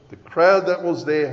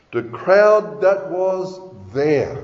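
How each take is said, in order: First: Said in the usual way. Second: "The crowd that was there" slow, with weighty pauses; slow, deliberate stress on "crowd" and "there"; slow emphatic. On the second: Real, not acted. Preacher stresses a key phrase, then repeats.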